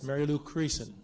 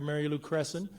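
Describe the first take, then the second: First: The surname is said with a long ee vowel. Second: The surname is said like the word crescent. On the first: The speaker calls it right. "It's Mary Lou Creason" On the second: The speaker calls it wrong. "That isn't right"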